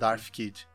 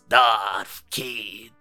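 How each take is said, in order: First: It is said in a plain voice. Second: It is said in a Palpatine voice.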